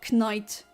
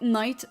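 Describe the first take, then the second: First: The K at the start is pronounced. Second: The K at the start is silent.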